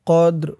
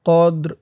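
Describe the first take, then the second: Both takes have the same delivery.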